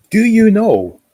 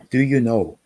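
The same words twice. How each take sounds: First: High and loud, bursting out; sudden excited shout of do you know; excited outburst. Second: Said in the usual way. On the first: Real, not acted. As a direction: blurt it out, much higher and louder. Excited call to viewer.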